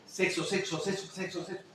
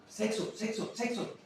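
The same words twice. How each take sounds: First: Said in the usual way. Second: Repeated higher. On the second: Shown as a demonstration. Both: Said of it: "lo repito más".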